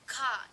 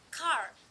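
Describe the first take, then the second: First: The final R sound is not pronounced. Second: The final R sound is clearly pronounced. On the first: "There is no R" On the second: "pronounced with a clear R"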